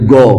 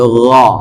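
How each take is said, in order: First: The first sound is a plain hard g. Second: The first sound is a rasping throat gh. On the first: The speaker calls it wrong. "Tidak boleh go" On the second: The speaker calls it right. "tapi gha"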